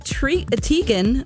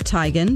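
First: The first syllable sounds like 'tee'. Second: The first syllable sounds like 'tie'. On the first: This is how most people say the name. The speaker calls it wrong. "people are still going to call her Tee-gan" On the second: This is how the name's owner says it. The speaker calls it right. "her name is actually pronounced Tie-gan"

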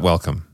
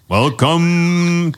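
First: An epic, dramatic movie-trailer voice. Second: A loud, booming wrestling-announcer voice. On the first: "I was trying to be really epic with my like movie voice, and then it just fell flat" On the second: "that's more of like a wrestling ring"

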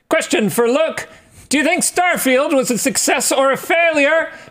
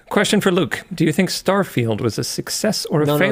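First: It is read loudly, as if yelling. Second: It is read at a normal, calm volume. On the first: The speaker calls it right. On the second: The speaker calls it wrong.

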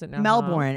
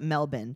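First: The r in Melbourne is pronounced. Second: The r in Melbourne is dropped. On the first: "she's like" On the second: "actually, we call it Melbourne. And she's like, oh, so you don't pronounce the R"

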